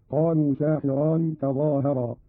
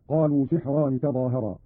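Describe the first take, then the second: First: Slowly, "ساحران" as saahiraan; long aa after the s, kasra on the h in "ساحران"; long alif after sin. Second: Said in the usual way. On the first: Shown as a demonstration. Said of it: "بفتح السين وألف بعدها". ("ساحران" بفتح السين وألف بعدها وكسر الحاء)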